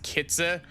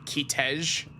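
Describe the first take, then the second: First: The name is said with an English-style pronunciation. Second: The name is said with a German-style pronunciation. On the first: The speaker calls it wrong. "I pronounced that as as Kitze" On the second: The speaker calls it right. "its actual pronunciation in German is like Kitej"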